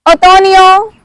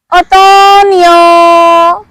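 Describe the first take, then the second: First: Said in the usual way. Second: "Otoño" stretched out very slowly; very slow model. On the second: Shown as a demonstration. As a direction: draw out each vowel of "Otoño" for learners. Teacher stretches word out for learners.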